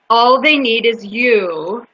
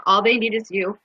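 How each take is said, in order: First: Drawn-out, deliberate reading; slow dramatic reading. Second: Mild, understated echo of crying; retold tearful reaction. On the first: Retold or imitated. Speaker reads the mural's promise to listeners, slowly and emphatically. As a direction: give every word its own slow weight. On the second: Speaker retells reading the mural while crying, only lightly tearful. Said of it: "Now I'm crying. I'm going".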